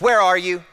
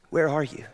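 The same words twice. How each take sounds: First: It is said in a demanding, harsh tone. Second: It is said in a gentle, tender tone.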